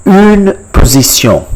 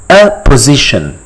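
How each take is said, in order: First: "Une position" as French, higher, with rounded u; French pronunciation. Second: Said in the usual way. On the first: Shown as a demonstration. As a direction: model "Une position" high, ending in nasal -syon. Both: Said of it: "a position in French".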